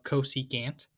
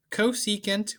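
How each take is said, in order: First: "cosecant" said co-see-cant, ending like "can't"; alternative pronunciation. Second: Said in the usual way. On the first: Shown as a demonstration. Teacher offering the other way to say cosecant, alternative pronunciation. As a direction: end "cosecant" on a full "a", as in "can't". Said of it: "as some people call it". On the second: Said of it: "or as some people call it".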